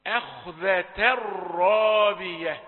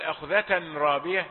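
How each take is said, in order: First: "أخذة الرابية" slowly, n merged into a held r; loud drawn-out recitation, no n before the r; merged tanween. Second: "أخذة رابية" with a clear n before r; unmerged tanween. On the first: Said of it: "ده أدغم في الراء". (إدغام التنوين في راء "الرابية") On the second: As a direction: sound the n separately between "أخذة" and "رابية". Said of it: "لا تقل". (إظهار نون التنوين في "أخذة رابية") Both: Shown as a demonstration.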